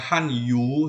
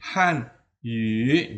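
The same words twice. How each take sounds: First: The last vowel is a plain 'oo' sound. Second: The last vowel is a rounded front 'ü' sound. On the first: The speaker calls it wrong. "ini bukan u, ya, jangan dibaca hanyu, salah" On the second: The speaker calls it right. "bacanya yu, ini adalah yu"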